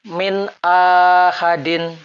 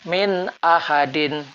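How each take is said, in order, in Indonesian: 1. Vokal di awal ahadin dibaca panjang. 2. Vokal di awal ahadin dibaca pendek. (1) "Bacaan akan berlaku salah sekiranya hamzah kotok dipanjangkan" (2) "Yang betul"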